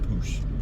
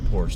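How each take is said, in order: First: The word is said as a single short 'poosh'. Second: The word is said with the usual Porsche pronunciation. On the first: "they pronounced it poosh" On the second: "they didn't pronounce it Porsche"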